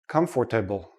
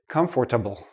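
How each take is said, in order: First: The middle 'or' syllable is fully pronounced. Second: The middle 'or' syllable is fully pronounced.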